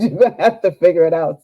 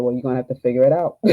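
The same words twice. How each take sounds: First: Higher and louder, laughing through the doctor's words; laughing repeat. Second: The doctor's blunt line, slightly amused; quoting through a laugh. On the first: Repeating the doctor's answer to the coach, laughing hard. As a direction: retell it again, cracking up. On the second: Telling the coach what the doctor said, with a light laugh. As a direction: repeat his words with a chuckle. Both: Retold or imitated. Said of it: "He said".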